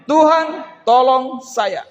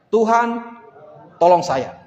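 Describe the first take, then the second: First: Higher, louder, stretched-out plea; pleading cry. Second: Said in the usual way. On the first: Shown as a demonstration. Preacher leading the congregation's cry, loud and drawn out. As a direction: cry out slowly for help.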